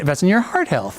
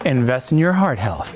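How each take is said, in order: First: The pitch goes up on the phrase. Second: The pitch goes down on the phrase. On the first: "or go up on it" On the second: "you can even go down further on it"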